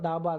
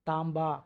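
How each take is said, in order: First: It is said without a nasal before 'b'. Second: It is said with an 'm' before 'b'. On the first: "பொதுவாக தாபா தான்" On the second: "உச்சரிப்பு வந்து தாம்பா"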